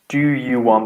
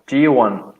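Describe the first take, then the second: First: Each word is said separately and in full. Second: The words are reduced and run together.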